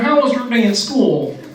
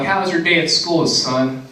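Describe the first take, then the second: First: It is said in a Kermit the Frog voice. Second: It is said in his normal voice.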